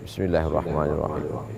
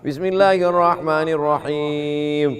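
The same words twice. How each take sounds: First: It is recited quietly. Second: It is recited aloud.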